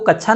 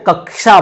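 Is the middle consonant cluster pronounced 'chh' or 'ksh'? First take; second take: chh; ksh. First: The middle cluster sounds like an aspirated 'chh'. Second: The middle cluster sounds like 'k' plus 'sh'. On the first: "कच्छा को कच्छा नहीं बोलते हैं" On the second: "वो कक्षा बोलते हैं। कक्षा मतलब वो का और सा का उच्चारण करते हैं।"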